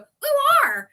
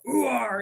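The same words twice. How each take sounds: First: It is said in an odd, unconvincing voice. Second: It is said in a convincing pirate-like voice. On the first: The speaker calls it wrong. "it sounds weird when I go ooh are" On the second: The speaker calls it right. "it sounds so much more authentic"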